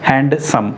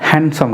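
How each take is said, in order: First: The d sound in the middle is pronounced. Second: The d sound in the middle is silent. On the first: The speaker calls it wrong. "आमतौर पे students या फिर जो भी English speakers हैं वो कहते हैं हैंडसम" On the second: The speaker calls it right. "यहाँ पर ये जो डी है ये साइलेंट होता है"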